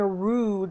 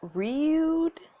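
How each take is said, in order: First: The vowel is a plain 'oo' without a glide. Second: The vowel starts with a 'y' glide, like 'you'. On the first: "instead of saying rude" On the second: "they said rude"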